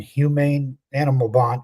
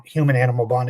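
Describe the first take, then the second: First: "humane" with a long second vowel, hew-MAIN; misread word. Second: Said in the usual way. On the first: Real, not acted. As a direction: slip and read it as "humane", stressed on the end. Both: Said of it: "excuse me".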